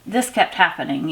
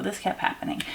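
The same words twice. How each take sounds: First: Said in the usual way. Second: Whispered repeat. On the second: Real, not acted.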